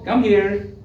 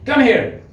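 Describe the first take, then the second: First: It is said in a warm, friendly tone. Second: It is said in a harsh, angry tone.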